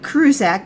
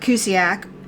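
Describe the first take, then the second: First: The name is said with an r sound. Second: The name is said without an r sound. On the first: The speaker calls it wrong. "not Krusak" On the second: The speaker calls it right. "but Cusick"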